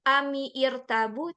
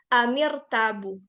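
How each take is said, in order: First: A separate i sound starts the second word. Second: The words link with no separate i sound. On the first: The speaker calls it wrong. "bukan ami irtabu" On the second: The speaker calls it right. "tapi jadi amir tabu"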